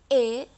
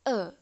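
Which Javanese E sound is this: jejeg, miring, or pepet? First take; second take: jejeg; pepet. First: The vowel is the ordinary jejeg E sound. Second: The vowel is the squeezed pepet E sound. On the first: "E jejeg itu E" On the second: "dan E pepet E"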